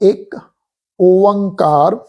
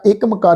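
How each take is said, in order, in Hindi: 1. दोनों शब्द अलग रखे जाते हैं। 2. दोनों शब्द एक में मिल जाते हैं। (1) "पाठ का उचारण आ जी" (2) "इस ढंग नाल नहीं करना"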